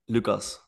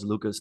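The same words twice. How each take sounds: First: The name has its original native pronunciation. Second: The name has an Americanized English pronunciation. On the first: This is the speaker's true name. The speaker calls it right. "How do you pronounce it?" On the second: This is the adapted form used for marketing. The speaker calls it wrong. "we Americanize everything. Like I market myself as Lucas"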